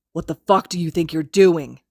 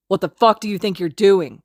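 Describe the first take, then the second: First: A louder angry hiss. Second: Loud furious snarl. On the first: Kacchan pinning Izuku to the wall, angry hiss. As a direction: lean in and hiss it. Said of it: "he hisses". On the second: Kacchan confronting Izuku over Haru, snarling loudly. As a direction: spit the question at him in rage. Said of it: "Kacchan snarls". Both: Acted.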